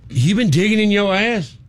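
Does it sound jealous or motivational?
jealous. It sounds jealous, close to angry.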